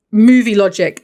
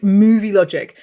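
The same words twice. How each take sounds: First: Scornful verdict. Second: Said in the usual way. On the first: Real, not acted.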